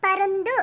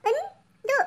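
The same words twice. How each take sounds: First: Said in the usual way. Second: பருந்து broken into separate letters with gaps. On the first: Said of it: "உச்சரித்து வாசிங்க". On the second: Shown as a demonstration. Pupil reads aloud for the teacher, பருந்து letter by letter. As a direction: sound out பருந்து piece by piece. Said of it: "ஒவ்வொரு எழுத்தா உச்சரித்து வாசிங்க".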